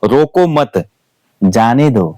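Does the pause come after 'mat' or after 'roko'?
after mat. There is a pause right after the second word. Do not stop this person; let them go. "इसी sentence के अगर मैं बीच में अगर full ये आपका अल्प विराम लगाता हूं"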